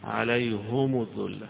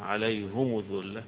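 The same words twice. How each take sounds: No difference in how they are said.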